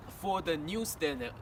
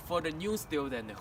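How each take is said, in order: Both takes have the same delivery.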